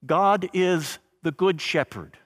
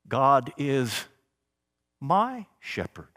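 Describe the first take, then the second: First: Said in the usual way. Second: Pause, then a tender lifted "my"; stress on my. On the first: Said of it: "You hear how it changes". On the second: Shown as a demonstration. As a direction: let "my shepherd" sound intimate. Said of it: "That word, small word, my, becomes powerful".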